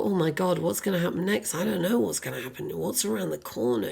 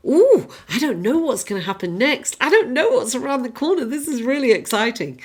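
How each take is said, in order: First: Hushed, quick worried fretting; understated dread of what comes next; mild fear. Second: Lively, lifted, wide-eyed anticipation; eager excitement. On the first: Imagining fear of what's around the corner, mild hushed worry. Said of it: "Or potential fear of". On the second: The Fool facing what happens next, eager excitement. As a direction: relish the unknown like a naive adventurer. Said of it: "Fool is like". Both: Acted.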